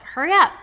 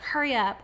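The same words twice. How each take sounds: First: High, loud, impatient snap; impatient mother. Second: Said in the usual way. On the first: Retold or imitated. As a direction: hurry the toddler along, exasperated. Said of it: "saying out loud, like". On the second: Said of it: "she would never say, like".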